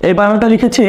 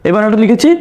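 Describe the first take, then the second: No difference in how they are said.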